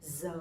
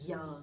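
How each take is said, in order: First: The consonant sounds like an English z. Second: The consonant sounds like an English y. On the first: The speaker is from the north. "I'm from the north, I'm from Hanoi, so my pronunciation would be Z" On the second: The speaker is from the south. "people from the south, they would pronounce a little bit differently"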